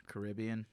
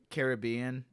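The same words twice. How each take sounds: First: CARIBBEAN said kuh-RIB-ee-an; CARIBBEAN with the weight on "rib"; second-syllable stress. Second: CARIBBEAN said care-ih-BEE-an; CARIBBEAN with the weight on "bee"; third-syllable stress. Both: Shown as a demonstration. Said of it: "It's also, like, Caribbean and Caribbean".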